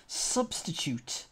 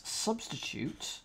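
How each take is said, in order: First: Said in the usual way. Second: Muttered. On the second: Real, not acted.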